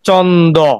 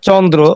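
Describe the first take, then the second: First: The r sound is left out entirely. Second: The r is joined to the d in a cluster. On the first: This is a partly changed form. "র বলার সুযোগ নেই" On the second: This is the original Sanskrit form. "আপনি এক বাক্যে বলবেন এটা হলো সংস্কৃত বা তৎসম শব্দ"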